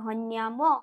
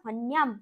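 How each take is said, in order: First: The final m carries a following vowel. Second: The word stops on a bare final m. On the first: "এখানে কিন্তু আমরা থামেনি, তার মানে ময়ের সঙ্গে স্বরবর্ণ যুক্ত রয়েছে" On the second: "মতে আমরা থেমে গেলাম, তাহলে ময় হসন্ত পড়ছে"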